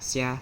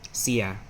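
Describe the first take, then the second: First: The word is said quickly, run together. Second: The word is said slowly and carefully. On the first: "A lot of people say it fast as sia" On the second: "but sia"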